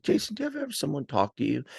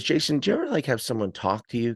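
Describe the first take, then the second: First: Quick, higher-pitched mom impression; imitating mom. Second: Lightly voiced mom, higher pitch; a hint of mom opening a story, pitched up; mom's question. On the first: Mom coming in to tell her son a story, imitated high and fast. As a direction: launch in as mom, high and rapid. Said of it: "'Cause she comes in like this". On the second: Mom asking her son before her story, lightly imitated higher voice. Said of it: "And she says to me".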